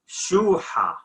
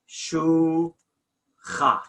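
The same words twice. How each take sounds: First: The middle consonant is a breathy h sound. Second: The middle consonant is a harsh ch sound. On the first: This is the Nineveh Plain dialect. "We say shuha. Okay? Sounds of H" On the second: This is the mountain dialect. "in a mountain dialogue, they don't say shuha. Again, they say shuha"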